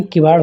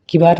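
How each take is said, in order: First: Said in the usual way. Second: किवाड़ ending in plain r, "kibaar"; mispronunciation. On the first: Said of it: "किवाड़ होता है". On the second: Shown as a demonstration. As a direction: swap the flap in किवाड़ for r. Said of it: "किवाड़ नहीं". (किवाड़ के अंत में 'र')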